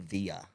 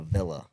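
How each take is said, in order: First: The double L is said as a Y sound. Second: The double L is said as an L sound. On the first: The speaker calls it wrong. "you don't stay in a villa" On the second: The speaker calls it right. "You stay in a villa"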